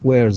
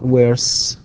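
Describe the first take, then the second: First: The word ends with a buzzing z sound. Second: The word ends with a hissing s sound. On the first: The speaker calls it right. "إلا أنها تنطق Z" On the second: The speaker calls it wrong. "not S"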